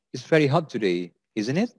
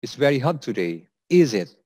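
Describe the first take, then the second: First: "isn't it" rising like a real question; rising tag intonation. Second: "is it" going down at the end; falling tag intonation. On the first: Teacher contrasts asking confirmation with small talk, rising tag. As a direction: lift "isn't it" to seek confirmation. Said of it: "if the tone is rising". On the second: Teacher contrasts small talk with asking confirmation, falling tag. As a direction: drop the tone on "is it". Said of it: "is slightly going down". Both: Shown as a demonstration.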